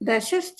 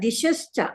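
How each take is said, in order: First: The first vowel is an 'a' sound. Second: The first vowel is an 'i' sound. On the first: The speaker calls it wrong. "ದಶಶ್ಚ ಅಲ್ಲ" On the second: The speaker calls it right.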